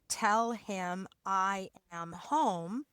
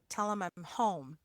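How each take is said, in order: First: Each word is said fully and separately. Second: Words are reduced and run together. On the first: "five words" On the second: "It can sound really like two words"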